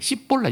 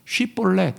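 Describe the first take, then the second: First: The word begins with an 's' sound. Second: The word begins with a 'sh' sound. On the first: This is the form the dialect speakers actually said. "이렇게 발음한 거야" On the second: This is the form the dialect speakers could not say. "이거 발음 못해"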